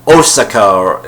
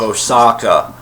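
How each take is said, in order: First: The stress is on the first syllable. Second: The stress falls after the first syllable. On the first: The speaker calls it wrong. "stress the first syllables" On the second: The speaker calls it right. "instead of"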